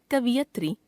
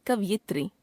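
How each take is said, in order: First: कवियत्री said "ka-vi-yat-ri"; wrong pronunciation. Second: Said in the usual way. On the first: Shown as a demonstration. Teacher showing a common error, कवियत्री as "kaviyatri". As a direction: put the short i after v in कवियत्री. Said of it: "अशुद्ध". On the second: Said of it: "शुद्ध".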